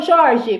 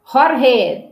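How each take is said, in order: First: Jorge said Portuguese-style, as "ZHOR-zhi"; pronúncia portuguesa. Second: Jorge said Spanish-style, as "hor-HE"; breathy h sounds for both consonants in Jorge; pronúncia espanhola. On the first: (Jorge em português, "jórji") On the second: (Jorge com sotaque espanhol, "rorrê") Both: Shown as a demonstration. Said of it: "não, Jorge".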